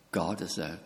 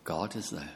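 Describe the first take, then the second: First: "God" leaned on, voice low and falling; stress on GOD. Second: "is" pressed firmly, softer, falling; stress on IS. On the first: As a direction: put the weight on "God" in God is there. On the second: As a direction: lean on the word "is" in God is there. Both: Shown as a demonstration. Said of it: "Oh, I'm wrong".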